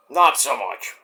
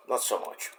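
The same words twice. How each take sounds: First: Said in the usual way. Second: Whispered aside. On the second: Shown as a demonstration. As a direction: breathe it out without voice. Repeats phrase two ways.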